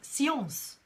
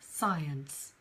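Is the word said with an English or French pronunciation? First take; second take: French; English. First: It is said with a French pronunciation. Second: It is said with an English pronunciation. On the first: "it comes from French" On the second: "but we call it science"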